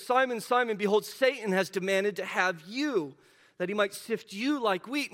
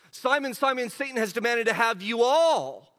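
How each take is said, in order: First: Said in the usual way. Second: "you all" leaned on, loud and falling; stress on you all. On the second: Shown as a demonstration. Pastor rereads the verse to show "you" means all of them, stressing "you all". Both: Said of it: "we said that "you" there is plural".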